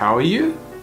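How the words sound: The voice rises at the end. The speaker calls it wrong. "If we went with an uptone, it would be"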